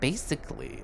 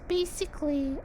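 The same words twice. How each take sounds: First: It is said in the speaker's normal voice. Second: It is said in a put-on character voice. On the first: The speaker calls it wrong. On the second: The speaker calls it right.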